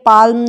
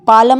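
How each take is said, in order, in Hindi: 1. "l" को "m" से पहले सुना जाता है। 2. "l" को एक अतिरिक्त स्वर के साथ सुना जाता है। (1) "पाल्म नहीं पढ़ते" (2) "पालम नहीं पढ़ते"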